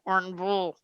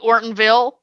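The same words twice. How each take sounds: First: The last syllable is a mumbled 'vul'. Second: The last syllable is a clear 'ville'. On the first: This is how it is said in Tennessee. "Here it's V U L. ... they barely move their mouth" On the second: This is how it is said in Michigan. "in Michigan it would be Ortonville"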